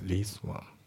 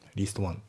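First: The t at the end of least is dropped. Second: The t at the end of least is pronounced. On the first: The speaker calls it right. "least のt もね、抜けますね。" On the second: The speaker calls it wrong. "least one じゃなくて"

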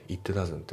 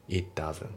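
No difference in how they are said.

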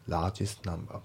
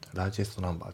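No difference in how they are said.

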